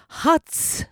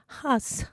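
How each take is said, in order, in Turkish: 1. Kelime ts sesiyle biter. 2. Kelime düz s sesiyle biter. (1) "Ç sesi Latin harfleriyle T, S olarak yazılır" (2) "T yerine S"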